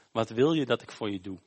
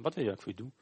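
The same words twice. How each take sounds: First: Said in the usual way. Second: Quick, soft, offhand question; simpel, gewoon. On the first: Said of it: "is wat Jezus dan tegen Bartimaeus zegt". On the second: Acted. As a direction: ask it casually, as an everyday thing. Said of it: "Gewoon zo simpel". (zachte, terloopse vraag)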